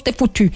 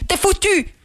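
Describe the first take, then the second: First: Said in the usual way. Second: High-pitched exclamation of "foutu"; emphatic exclamation. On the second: Real, not acted. Host drives home the warning to overloaded listeners, high and emphatic. Repeats the warning with more force.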